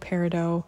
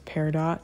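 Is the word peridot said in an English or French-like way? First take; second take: French; English. First: The word is said in a French-like way. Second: The word is said in an English-like way. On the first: "That's like the French probably pronunciation" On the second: "I'm also going to refer to this as peridot"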